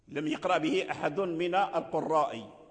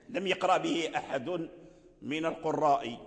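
Both takes have the same delivery.

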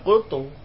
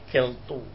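First: The first vowel is a plain u sound. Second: The first vowel is tilted to an e sound. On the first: The speaker calls it right. "ya kultu" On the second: The speaker calls it wrong. "Tak boleh"

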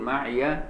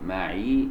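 First: The final y carries a short a vowel. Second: The final y has no vowel after it. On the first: This is the reading of one group of reciters. "اللي يقول معي ورش وحفص" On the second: This is the reading of the other reciters. "لتسكين الياء"

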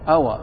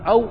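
First: The waw is followed by a short a vowel. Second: The waw carries no vowel after it. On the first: It is the conjunction 'and' after the question particle. "قراءة فتح الواو" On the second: It is the conjunction 'or' expressing a choice. "وفي القراءة الثانية"

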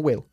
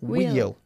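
First: The vowel is short, like 'will'. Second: The vowel is long, like 'wheel'. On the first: The speaker calls it wrong. "No will" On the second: The speaker calls it right.

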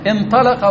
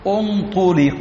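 First: The verb begins with an i vowel. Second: The verb begins with a u vowel. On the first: The doer of the action is named. "هذه كيف تكون مبنية لما لم يسمى فاعله؟" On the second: The doer of the action is not named. "ضم أوله وثالثه"

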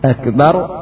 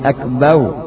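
First: The word ends with a clear r sound. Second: The word ends with a w-like sound.

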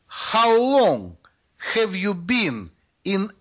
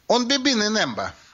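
First: Each word is said clearly and separately. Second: The words are run together and heavily reduced. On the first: "оказалось, что это" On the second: "товарищ по-африкански заговорил"

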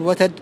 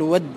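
First: The middle consonant t carries the vowel a. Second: The t merges into a doubled d sound. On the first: "وتفتح أيضا في لغة فيقال وتد" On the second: "وتقلب التاء دالا وتضغم في الدال في لغة الرابعة فيقال ود"

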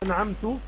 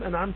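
First: The word ends with a short 'u' vowel. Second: The word ends with a short 'a' vowel. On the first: The speaker is the one who bestowed favor. The speaker calls it wrong. "أنعمت من؟ يراجع لأنا، هنا يغير المعنى" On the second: God is the one who bestowed favor. The speaker calls it right. "هكذا تكون أنعمت أنت يا الله"

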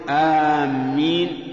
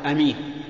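First: The first vowel is long, with a doubled m. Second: The first vowel is short, with a single m. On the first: It means people heading toward a place. "وكذلك أيضا آمين لا يصح، لأن آمين بمعنى قاصدين" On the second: It means trustworthy, from the root for safety. "لا يصح أن تقول أمين، لأن أمين صفة مشبهة من الأمن"

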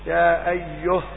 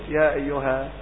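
First: The final word stops without a long 'a' vowel. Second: The final word stops with a long 'a' vowel. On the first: "الألف محذوفة في الرسم ... محذوفة في الوقف" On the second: "ثابتة في الرسم وفي الوقف"

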